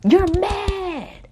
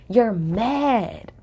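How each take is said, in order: First: Drawn-out MAD, pitched way up high; high-pitched taunt. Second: Slow, drawn-out taunt near usual pitch. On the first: Taunting a castmate over her printed tweets, high-pitched jab. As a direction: sing out the taunt high and long. Taunting Cam, repeated much higher. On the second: Taunting a castmate over her printed tweets, drawn-out jab. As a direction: stretch out MAD, keeping the voice down. Taunting Cam, repeated for effect. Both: Real, not acted.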